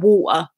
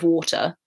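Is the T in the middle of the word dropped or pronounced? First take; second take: dropped; pronounced. First: The middle T is dropped, in a Cockney accent. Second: The middle T is pronounced, in an RP accent. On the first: "like they drop T's, so like water" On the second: "instead of water"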